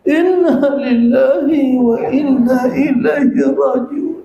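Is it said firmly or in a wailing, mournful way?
wailing. It is said in a wailing, mournful way.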